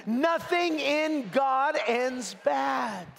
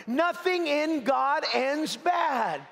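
First: Slow, high, shouted with conviction. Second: Said in the usual way. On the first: Shown as a demonstration. Preacher calling the church to repeat it, shouted with conviction. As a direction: shout it like you believe it. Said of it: "Now say it with conviction". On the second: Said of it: "Say that with me".

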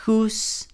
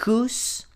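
First: Whose said aloud and high; voiced whose. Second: Whose whispered high, rising. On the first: Teacher saying whose aloud to compare with the whisper. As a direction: say whose out clearly. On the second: Teacher whispering whose as a pronunciation demo. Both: Shown as a demonstration. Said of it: "Atentos con la pronunciación".

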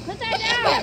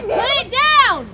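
First: Said in the usual way. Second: Loud and slow, drawn out; stern order. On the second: Real, not acted. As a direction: bark it out slowly. Repeats the order, louder.

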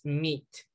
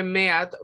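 First: Said in the usual way. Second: "meat" read as written, "MEH-at"; spelling pronunciation. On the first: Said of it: "pero pronunciamos meat". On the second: Shown as a demonstration. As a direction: sound both vowels of "meat", meh-at. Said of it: "Se escribe meat".

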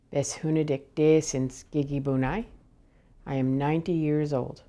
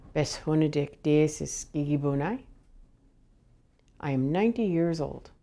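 The two takes are said the same way.

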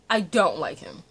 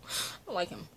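First: Said out loud and firmly, stress on I; I don't like him, voiced and emphatic. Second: A hushed aside of dislike; whispered. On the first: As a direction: plant it as a firm verdict. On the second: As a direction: whisper it under your breath, softer. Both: Real, not acted. Repeating dislike of a character.

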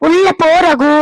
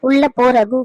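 First: Louder, higher plea to go inside; raised urgent plea. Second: Said in the usual way. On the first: Acted. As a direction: beg him firmly to leave. Mother repeats louder to son. (உள்ள போ ரகு என்று உரத்த குரலில் கெஞ்சல்)

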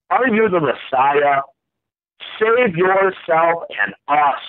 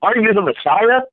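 First: Insulting read. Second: Mocking question pitched high; taunting jeer at the man on the cross; angry mocking. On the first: A narrator's reading. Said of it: "hurled insults at Jesus". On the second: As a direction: sneer the Messiah question up high at Jesus. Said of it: "kinda angry at Jesus".

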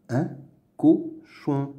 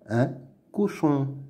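First: "Un cochon" as "un", "co", "chon"; syllable by syllable. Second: Said in the usual way. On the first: Shown as a demonstration. Teacher sounding out words to read, "Un cochon" in separate syllables. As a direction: pause after each syllable of "Un cochon". Reading drill, split then blended.

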